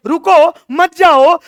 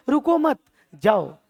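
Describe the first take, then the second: First: High, loud, stretched "रुको", then "मत जाओ" together; halting plea. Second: Slow "रुको मत", pause, then falling "जाओ"; waving someone through. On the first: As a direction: cry out "रुको" to stop them, drawing out "मत जाओ". (ऊँचा खिंचा "रुको", फिर ज़ोर से "मत जाओ") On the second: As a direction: keep "रुको मत" together without shouting, release on "जाओ". (धीमे "रुको मत", विराम, फिर "जाओ") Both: Acted. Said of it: "comma का फर्क है".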